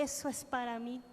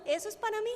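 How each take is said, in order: First: Said in the usual way. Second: "mí" lifted high and glowing; excited. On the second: Retold or imitated. Woman recalling her answered prayer, excited. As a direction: say "eso es para mí" with joyful certainty. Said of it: "ya yo le había pedido eso al Señor".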